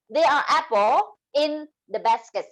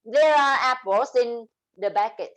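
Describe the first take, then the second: First: "apple" without final s sound; "There are apple" with the s missing; dropped final s. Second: "apples" with a clear final s linked to "in"; "There are apples" linked smoothly, final s sounded; linked with final sounds. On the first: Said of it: "if you don't have S here". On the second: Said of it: "if you have linking". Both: Shown as a demonstration.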